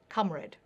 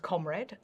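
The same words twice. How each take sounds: First: The first vowel sounds like the vowel in 'hut'. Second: The first vowel sounds like the vowel in 'hot'. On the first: This is the original older pronunciation. "as the words company, comfortable, frontier, and sponge were pronounced with an ah" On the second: This is the modern spelling-based pronunciation. "which I would pronounce as comrade"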